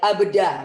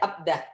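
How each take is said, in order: First: The word is said in an exaggerated, overdone way. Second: The word is said in a plain, relaxed way. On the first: This is how local learners overdo it. The speaker calls it wrong. "Kalau orang Indonesia terlalu lebay" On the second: This is how native speakers say it. The speaker calls it right. "Kalau orang sana cuma biasa aja"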